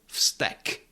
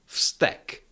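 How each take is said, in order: The two takes are said the same way.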